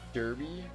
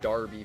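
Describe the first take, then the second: First: The first vowel sounds like 'her'. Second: The first vowel sounds like 'car'.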